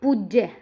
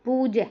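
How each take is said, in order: First: पूज्य as puj-je, short u and doubled j; taught short vowel. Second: पूज्य with long poo, single j; mistaken long vowel. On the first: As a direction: snap पूज्य shut on the j, then release. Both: Shown as a demonstration. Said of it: "पूज्य नहीं".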